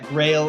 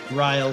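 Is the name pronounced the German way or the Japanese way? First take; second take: Japanese; German. First: The name is said with a Japanese pronunciation. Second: The name is said with a German pronunciation. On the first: "In Japanese, you would pronounce that" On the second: "In German, you would pronounce it"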